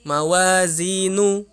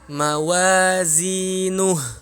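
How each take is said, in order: First: The word ends on a vowel without final h. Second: The word ends with an audible breathy h. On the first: The speaker calls it wrong. "Jangan nu, ... Kurang, kurang huruf H" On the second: The speaker calls it right. "Yakni mawazinuh"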